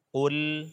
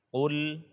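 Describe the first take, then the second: The two takes are said the same way.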